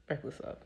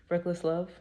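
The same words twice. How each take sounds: First: A near-silent echo of the title, fading away; soft echo. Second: Sung, lightly sung song title, set apart from her speech; half-sung title. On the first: Preacher softly echoes the song title to herself. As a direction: breathe the title again as it fades. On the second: Preacher croons the title of her favourite song. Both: Acted.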